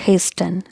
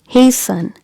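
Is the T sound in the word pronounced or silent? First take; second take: pronounced; silent. First: The T sound is pronounced in the word. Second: The T sound is silent in the word. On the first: The speaker calls it wrong. "not hasten" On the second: The speaker calls it right. "This is hasten"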